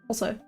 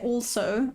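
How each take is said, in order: First: The L sound is left out. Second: The L sound is clearly pronounced. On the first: "I go also. It's almost like I leave out the L" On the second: "I don't say also"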